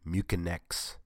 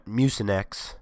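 First: Mucinex said myoo-kin-ex, with a k sound, dropping off quietly; the wrong Mucinex, myoo-kin-ex; mispronounced Mucinex. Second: Said in the usual way. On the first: Shown as a demonstration. Vlogger showing his slip, a quiet myoo-kin-ex. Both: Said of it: "I made that mistake".

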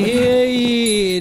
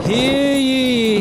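First: Loud echoing call; town crier. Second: High loud proclamation; town crier. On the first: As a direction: ring it out once more. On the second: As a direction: announce it to the square. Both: Acted. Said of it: "town crier".

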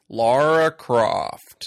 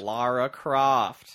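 First: Slow, loud, overdone American drawl of "Lara Croft"; bad American accent. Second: Slow, loud mock drawl of "Lara Croft"; bad American accent. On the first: Mocking Daniel Craig's fake American accent, slow and loud. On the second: Co-host echoing Craig's awful accent, slow and loud. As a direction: echo the line in a clumsy American voice. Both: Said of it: "sounded like Harrison Ford making fun of Harrison Ford".

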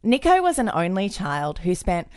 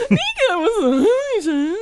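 First: Said in the usual way. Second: High voice cracking with tears; voice breaking. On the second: Real, not acted. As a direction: voice breaking up, much higher. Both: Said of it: "your voice is broken".

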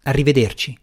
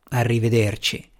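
First: Said in the usual way. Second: A tired, deflated goodbye, a bit softer; fiacco. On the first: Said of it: "Ti chiamerò io". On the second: A narrator's reading. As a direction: let the word sag, spent. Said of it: "disse fiaccamente Jens". (un arrivederci fiacco e stanco)

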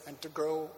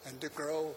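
No difference in how they are said.

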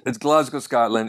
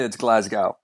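First: "Glasgow" as GLAZ-go, for the Scottish city; "Glasgow" with a z and "go" at the end; local pronunciation. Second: "Glasgow" as GLAZ-gow, rhyming with "cow"; "Glasgow" ending like "cow"; Montana pronunciation. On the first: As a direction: say "Glasgow" with a final "oh". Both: Shown as a demonstration. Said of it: "if you're Montana".

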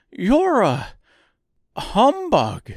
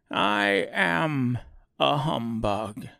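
First: High, loud reproach; grieved. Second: Lightly voiced cheerful admission; pleased. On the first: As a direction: accuse him, wounded. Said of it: "in a grieved tone". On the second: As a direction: own it, a bit pleased. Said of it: "as if it pleased him". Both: A narrator's reading.

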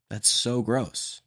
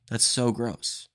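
Both takes have the same delivery.

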